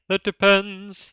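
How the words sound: The voice is pitched somewhat too high. The speaker calls it wrong.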